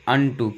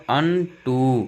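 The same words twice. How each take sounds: First: Said in the usual way. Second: "unto" drawn out as अन्न ... टू; sounded-out word. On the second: Shown as a demonstration. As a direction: stretch both syllables of "unto". ("unto" को अन्न ... टू खींचकर) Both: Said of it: "क्या पढ़ूंगा?".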